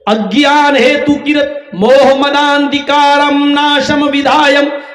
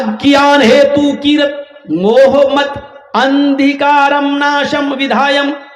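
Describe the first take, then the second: First: The words are merged into one word. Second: The words are said apart, one by one. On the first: "इसको मिलाकर इसके उच्चारण को यूं पढ़ा जाएगा" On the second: "हम अलग अलग पढ़ रहे हैं"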